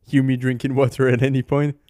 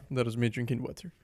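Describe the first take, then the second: First: Said in the usual way. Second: Quiet breathy sigh after a sip; after drinking water. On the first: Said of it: "excuse me if you hear me drinking water". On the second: Real, not acted. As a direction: catch your breath after a gulp of water.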